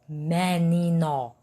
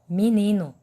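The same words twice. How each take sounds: First: The vowels are said as written, ending in o. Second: The vowels sound like i, ending in u. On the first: The speaker calls it wrong. "ninguém fala assim" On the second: The speaker calls it right. "M entre barras, I entre barras, N entre barras, I entre barras, N novamente entre barras e U entre barras"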